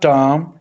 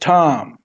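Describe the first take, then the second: First: The T is said without a puff of air. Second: The T is said with a puff of air. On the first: The speaker calls it wrong. "It's not टॉम" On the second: The speaker calls it right. "It's थॉम"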